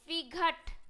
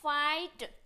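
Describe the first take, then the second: First: A 'gh' sound is heard before the final t. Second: The 'gh' is silent, with an 'eye' vowel. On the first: The speaker calls it wrong. "But ये क्या है guys, गलत है।" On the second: The speaker calls it right. "जी H जो है हमेशा silent रहता है।"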